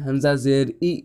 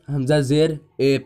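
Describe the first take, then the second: First: The final vowel is a clear 'ee' sound. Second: The final vowel is an 'ay' sound. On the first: The speaker calls it right. "ज़ेर को मारूफ पढ़ा जाए" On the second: The speaker calls it wrong. "ऐसे भी लोग हैं जो ... पढ़ते हैं ... इस तरह नहीं"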